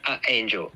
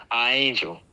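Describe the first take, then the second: First: "A angel" with a catch before "angel"; glottal stop demo. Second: "A angel" run together with no catch; blended vowels. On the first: Teacher imitating how little kids say it. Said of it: "put a glottal stop on the second A". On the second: Teacher showing blending without a glottal stop. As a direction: let the two A sounds blend smoothly. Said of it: "the A's would blend together". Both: Shown as a demonstration.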